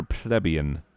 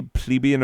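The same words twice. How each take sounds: First: Second "plebeian" as PLEB-ee-un; PLEBEIAN with short e. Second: First "plebeian" as PLEE-bee-un; PLEBEIAN with long ee. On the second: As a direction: say plebeian starting like "plea". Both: Shown as a demonstration. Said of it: "Do you say plebeian or plebeian?".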